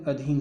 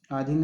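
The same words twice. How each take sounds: First: अधीन with short opening "a"; correct pronunciation. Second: आधीन with long opening "aa"; wrong form pronounced. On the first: Teacher correcting the option, right form sounded out. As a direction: say अधीन as a-dheen. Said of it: "अधीन होता है". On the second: Teacher showing the misspelt option, wrong form sounded out. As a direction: say आधीन as aa-dheen. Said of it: "आधीन है तो अधीन होता है". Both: Shown as a demonstration.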